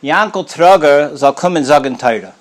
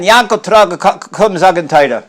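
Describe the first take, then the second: First: Calling out. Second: Higher, louder repeated summons; calling again, louder. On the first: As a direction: call the name across the table. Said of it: "he calls out". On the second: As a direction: call him a second time, insisting. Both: Retold or imitated.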